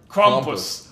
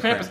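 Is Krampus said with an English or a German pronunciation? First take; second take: German; English. First: It is said with a German-style pronunciation. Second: It is said with a plain English pronunciation.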